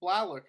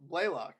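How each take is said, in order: First: Blalock said as BLAH-lock with a flat a; a first-try Blalock, BLAH-lock, about to be corrected; name misread. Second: Blaylock said slowly as BLAY-lock; a careful, slower BLAY-lock for Blaylock; correcting to Blaylock with a long A; name corrected. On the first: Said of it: "uh, Blaylock". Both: Shown as a demonstration.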